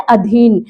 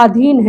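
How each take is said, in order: First: अधीन with a short opening a; शुद्ध उच्चारण. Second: अधीन with a long aa, "aadheen"; आम गलत उच्चारण. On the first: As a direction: clip the first vowel of अधीन. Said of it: "शुद्ध रूप क्या होता है". (अधीन का "अ" छोटा) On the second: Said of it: "आधीन को हम लोग बोलते हैं ना". (अधीन को "आधीन" बोलें) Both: Shown as a demonstration.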